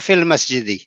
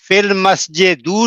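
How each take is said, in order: First: The last word ends with an 'i' vowel. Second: The last word ends with a 'u' vowel. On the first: The speaker calls it right. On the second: The speaker calls it wrong.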